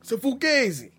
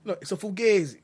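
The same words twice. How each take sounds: First: Mock Italian-American. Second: Put-on a louder, higher tough-guy Fugazi in an Italian-American accent; mock Italian-American. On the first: Podcast host echoing Pacino's line in a mock Italian-American accent. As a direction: echo the line high and loud in a tough-guy Italian-American accent. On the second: Host correcting his co-host with a mock Italian-American Fugazi. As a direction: lean harder into the mobster accent on Fugazi.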